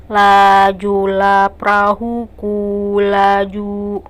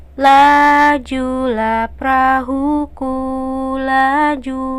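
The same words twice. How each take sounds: First: Lajulah perahuku laju on one level note, very slow, no tune; flat monotone. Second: Slow sung melody, each syllable on its note. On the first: Teacher shows a line without melody, slow flat monotone. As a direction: drone it slowly on a single pitch. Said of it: "jadi tidak lempeng seperti". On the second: Teacher sings the song line to show it has a tune, sung slowly. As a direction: sing lajulah perahuku laju slowly with a real tune. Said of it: "Seperti misalkan". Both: Shown as a demonstration.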